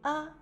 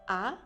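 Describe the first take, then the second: First: The syllable is said lightly and briefly. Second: The pitch rises toward the end. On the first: "au cinquième ton, il prononce légèrement et court" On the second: "au deuxième temps, on montre le son. Il semble dire je suis étonné"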